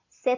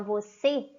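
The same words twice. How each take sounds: First: The word is cut down to one syllable. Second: The word is said in full, two syllables. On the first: "a gente vai comendo as palavras, chegou no C" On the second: "ao invés de a gente falar você"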